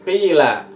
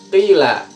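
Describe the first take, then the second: No difference in how they are said.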